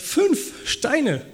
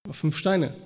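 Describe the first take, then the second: First: High incredulous echo of the question; God teasing David in mock surprise; mock disbelief. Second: Said in the usual way. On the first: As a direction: repeat it as if it can't be serious. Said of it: "Und Gott sagt".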